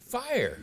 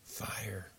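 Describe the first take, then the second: First: It is screamed loudly. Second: It is said softly and gently.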